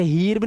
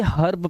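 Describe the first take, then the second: First: हीर्ब with a long ee; wrong ee sound. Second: हर्ब with a short uh vowel; short a sound. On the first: Teacher showing the misreading, हीर्ब with a long ee. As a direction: read हीर्ब as heerb. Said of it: "हीर्ब नहीं पढ़ना है". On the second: Teacher showing E before R, हर्ब with an uh sound. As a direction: read हर्ब as hurb. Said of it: "इसे हर्ब पढ़ेंगे". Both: Shown as a demonstration.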